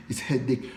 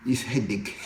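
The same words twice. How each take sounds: First: Said in the usual way. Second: Laughing. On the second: Real, not acted. Laughs about languages being hard.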